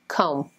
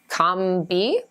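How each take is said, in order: First: No B sound is heard at the end. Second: A B sound is heard at the end. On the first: The speaker calls it right. "A long O, and the B is silent" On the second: The speaker calls it wrong. "It looks like comb-bee?"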